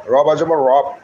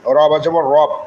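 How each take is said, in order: Both takes have the same delivery.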